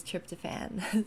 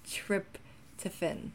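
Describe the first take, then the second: First: "tryptophan" ending in a full, clear "fan"; South African and British "tryptophan", last vowel unreduced; British pronunciation. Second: Slow "tryptophan" with a reduced "fin" ending; American "tryptophan", carefully broken up, last syllable weakened to "fun"; American pronunciation. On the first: Vlogger contrasting it with the American version, British pronunciation. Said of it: "is just like that". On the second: Vlogger contrasting versions for viewers, American pronunciation. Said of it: "So the American, um, pronunciation". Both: Shown as a demonstration.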